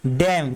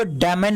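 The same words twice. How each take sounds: First: डैम as one syllable ending on M; correct reading, silent N. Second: डैमन in two syllables ending in N; wrong reading, N sounded. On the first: Teacher giving students the right reading, डैम closing on M. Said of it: "तो पढ़ेंगे क्या". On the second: Teacher warning students off a misreading, डैमन with N pronounced. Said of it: "इसको डैमन नहीं पढ़ेंगे". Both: Shown as a demonstration.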